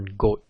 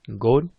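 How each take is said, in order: First: The word ends with a voiceless T sound. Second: The word ends with a voiced D sound.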